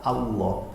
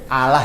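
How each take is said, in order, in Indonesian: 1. Bunyi L-nya tebal dan penuh. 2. Bunyi L-nya tipis dan ringan. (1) "Kalau Allah itu tafkhim" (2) "lamnya infitah la, lam fathah"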